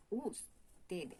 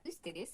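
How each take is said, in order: First: "ustedes" slowly, with a long OO, "oos-te-des"; Spanish U. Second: "ustedes" begun with a French U, as in "tu"; French U, the wrong take. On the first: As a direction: stretch the first vowel of "ustedes" as OO and draw out the word. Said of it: "Pareil pour la U". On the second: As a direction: open "ustedes" on a fronted rounded U. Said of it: "c'est pas ustedes". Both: Shown as a demonstration.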